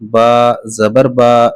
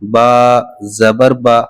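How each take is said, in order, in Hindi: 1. अंतिम स्वर खींचकर लंबा है। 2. अंतिम स्वर छोटा और तेज़ है। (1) "ऐसे नहीं पढ़ेंगे" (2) "ठीक है"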